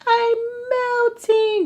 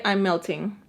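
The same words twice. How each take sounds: First: Very high, drawn-out mock wail; mock melting. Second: Said in the usual way. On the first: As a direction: melt away theatrically in a high, slow voice. Acts out her inner melting.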